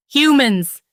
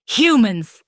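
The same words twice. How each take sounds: First: Higher, loud roar. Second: Loud, spat-out hatred. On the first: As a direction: roar the word at them. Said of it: "he roared". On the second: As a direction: spit the word out. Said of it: "he spat". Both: A narrator's reading.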